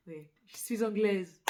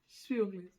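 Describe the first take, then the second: First: Louder, firm stress on anglaise; owning it with a proud push on anglaise; emphatic confession. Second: Said in the usual way. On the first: Real, not acted. Admitting to listeners she is English, firmly stressed.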